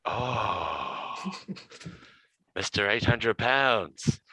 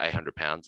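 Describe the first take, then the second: First: A lightly put-on Serbian accent, slow and amused; mock Serbian guard. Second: Said in the usual way. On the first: Serbian guard laughing, nicknaming Hamish in a Serbian accent. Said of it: "with a real heavy, Serbian accent".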